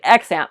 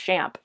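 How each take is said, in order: First: The word begins with a z sound. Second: The word begins with a sh sound. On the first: "Some people say Xamp" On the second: "I learned it's Shamp"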